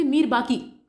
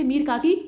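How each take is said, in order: First: Mir बाकी with a B sound, the correct name. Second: Mir काकी read with a K sound, as printed; misprinted name read out. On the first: (सही नाम मीर बाकी, ब की ध्वनि के साथ) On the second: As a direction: say Mir काकी exactly as the wrong option prints it. (गलत छपा नाम मीर काकी पढ़ना) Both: Shown as a demonstration. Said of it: "यहाँ पे काकी नहीं होगा बल्कि बाकी होगा".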